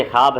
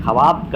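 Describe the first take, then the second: First: ख्वाब said as 'khaab', no w; silent waaw. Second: ख्वाब said as 'kha-waab'; sounded waaw. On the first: Teacher showing how it is read, ख्वाब as 'khaab'. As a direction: drop the w in ख्वाब, one syllable 'khaab'. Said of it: "पढ़ते ख्वाब हैं". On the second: Teacher showing the rejected reading, ख्वाब as 'kha-waab'. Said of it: "कभी नहीं पढ़ते हैं". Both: Shown as a demonstration.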